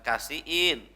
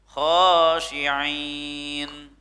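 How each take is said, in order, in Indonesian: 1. Kata itu dimulai dengan bunyi k biasa. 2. Kata itu dimulai dengan bunyi kh yang serak. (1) "bukan kasiin" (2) "harful kho di situ ya"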